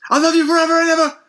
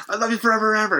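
First: High, fast, louder eerie sing-song; creepy love vow. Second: Raised, lightly eerie retelling; milder creepy vow. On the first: Dying wife vowing love to husband, high eerie gush. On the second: Retelling the dying wife's vow, mildly high and eerie. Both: Retold or imitated. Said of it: "Very, uh, very unsettling".

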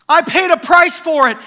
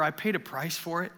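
First: Loud, high urgent claim; intense, not angry. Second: Gentle reminder. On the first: Jesus telling Graham in the dream, loud fervent claim. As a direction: declare the price paid with fervour. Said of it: "Remember, not anger in the voice". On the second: Jesus gently reminding the church. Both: Retold or imitated.

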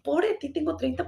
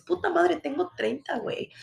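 First: Higher, whiny pity-me tone; mock self-pity. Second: Higher, punchy celebration of thirty; proud cheer. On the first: Mocking her own complaint about turning thirty, mock self-pity. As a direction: play the sorry victim, lightly. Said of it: "en vez de decir". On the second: Retold or imitated. Urging viewers to celebrate their age, proud cheer. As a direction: say it like a triumph. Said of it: "por qué no dices".

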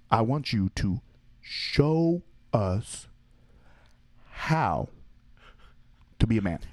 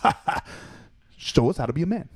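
First: Very slow, spaced-out mock dare. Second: Higher, laughing mock challenge; laughing taunt. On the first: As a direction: drag each word out deliberately. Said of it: "And then he would slow it down". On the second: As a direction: cackle through the dare, teasing. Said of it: "just start laughing and just be like".

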